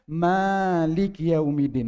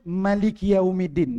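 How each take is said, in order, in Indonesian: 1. Vokal pertama 'ma' dibaca panjang. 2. Vokal pertama 'ma' dibaca pendek. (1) "ma itu panjang" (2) "ma itu tidak pan tidak panjang"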